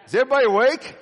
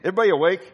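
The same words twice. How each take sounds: First: Rousing call to the crowd. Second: Said in the usual way. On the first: Shown as a demonstration. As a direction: jolt the congregation awake.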